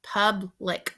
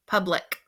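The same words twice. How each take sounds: First: "Public" broken in two, a pause between syllables; split into syllables. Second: Said in the usual way. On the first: Shown as a demonstration. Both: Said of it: "Think about your first syllable and your second syllable".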